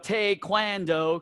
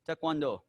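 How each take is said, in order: First: It is said with a Southern American twang. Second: It is said with a Korean-like pronunciation. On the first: "you have a little twang in your voice" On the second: "That's more Korean"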